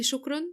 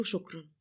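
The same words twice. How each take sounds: First: شكرًا thrown back higher, as a rising question; questioning echo. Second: A small, bashful thank-you, slightly subdued; shy thanks. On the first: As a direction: echo شكرًا in disbelief, pitched up at the end. Groom echoes her thanks, questioning. (شكرًا بنبرة سؤال واستغراب) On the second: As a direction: say it shyly, dropping at the end. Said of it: "ابتسمت بخجل". (شكر بخجل) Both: A narrator's reading.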